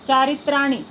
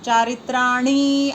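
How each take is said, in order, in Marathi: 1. ri आणि ni हे स्वर ह्रस्व आणि झटकन म्हणायचे. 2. ri आणि ni हे स्वर दीर्घ, ओढून म्हणायचे. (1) "दीर्घ उच्चार नाही करायचा. चारित्राणी लगेच थांबायचे" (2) "असं नाही करायचं"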